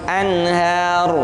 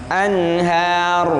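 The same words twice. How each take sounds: No difference in how they are said.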